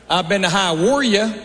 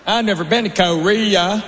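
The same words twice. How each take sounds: First: "Hawaii" drawn out as "Hi-wor-ya", slow; Hawaii said oddly. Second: Said in the usual way. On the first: Shown as a demonstration. Comic teaching the crowd his "Hawaii" pronunciation. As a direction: stretch "Hawaii" into a Southern "Hi-wor-ya". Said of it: "That's Hawaii".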